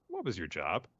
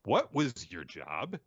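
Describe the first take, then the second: First: Restrained mock scolding, usual pitch; understated acted reprimand; mild scolding. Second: Slow, pointed mock reprimand; drawn-out acted telling-off; emphatic scolding. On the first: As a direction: open the telling-off evenly, as a question. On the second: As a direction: repeat it slowly, leaning on WHAT and JOB. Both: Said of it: "scolding Naroya and says".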